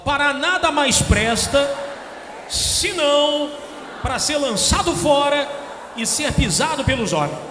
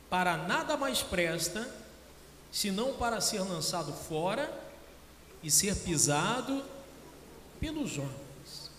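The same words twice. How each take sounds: First: It is read out more loudly. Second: It is read at a normal volume.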